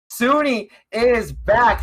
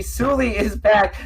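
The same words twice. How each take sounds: First: Says "Suni" with an n sound; name said as "Suni", not Suli; wrong name. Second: "Suli" said with a clear l sound; corrected name. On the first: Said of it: "Excuse me, Suli is back". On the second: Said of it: "Excuse me". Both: Real, not acted.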